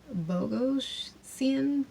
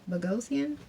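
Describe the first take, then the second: First: 'Bogosian' sounded out slowly as BOH-go-see-an; slow careful attempt. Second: 'Bogosian' as buh-GOH-see-an with a questioning rise; retry 'Bogosian' with stress on GOH, asking if that's right; unsure second try. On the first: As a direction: drag out 'Bogosian' syllable by syllable, unsure of the name. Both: Real, not acted. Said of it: "you know I'm horrible with names".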